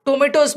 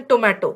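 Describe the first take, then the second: First: "टोमेटोज" shown as the British word; "टोमेटोज" set against the American way; British pronunciation. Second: "टोमेटो" shown as the American word; "टोमेटो" set against the British way; American pronunciation. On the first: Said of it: "British टोमेटोज बोलते हैं". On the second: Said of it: "और American टोमेटो". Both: Shown as a demonstration.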